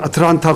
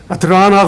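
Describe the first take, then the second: First: The t after the n is clearly pronounced. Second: The t after the n is dropped. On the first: "한국 사람들은 아틀란타 그러더라고요" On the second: "발음을 잘못하면 아틀라나 그러는데"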